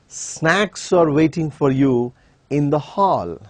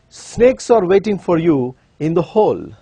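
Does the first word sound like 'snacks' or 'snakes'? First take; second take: snacks; snakes. First: The first word sounds like 'snacks', 'hall' like 'hall'. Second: The first word sounds like 'snakes', 'hall' like 'whole'. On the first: The speaker calls it right. "All that he was trying to say was" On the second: The speaker calls it wrong. "this is how he is inviting them"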